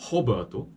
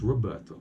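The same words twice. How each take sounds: First: The first sound is a breathy H sound. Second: The first sound is a clear R sound. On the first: The speaker calls it wrong. "His mother didn't call him Roberto" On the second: The speaker calls it right. "His name is Roberto"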